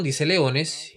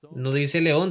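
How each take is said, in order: First: Leones stressed to set it against león. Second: León said plainly with a light rise; león spoken as the word the text does not use; stress on león. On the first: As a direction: hit the plural leones. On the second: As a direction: lean lightly on the singular león. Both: Shown as a demonstration.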